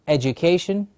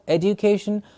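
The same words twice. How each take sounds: First: The middle consonant is not a plain d. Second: The middle consonant is a plain d sound. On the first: "the standard pronunciation of education" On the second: "some people who will pronounce this word as education with a d"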